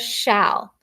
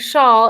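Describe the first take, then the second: First: The vowel sounds like the short a in 'cat'. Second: The vowel sounds like the vowel in 'all'. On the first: The speaker calls it right. "it says shall. So this is the one time the A says its short sound" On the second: The speaker calls it wrong. "instead of saying shawl"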